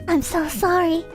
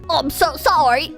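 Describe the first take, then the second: First: It is said in the speaker's own voice. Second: It is said in a put-on character voice.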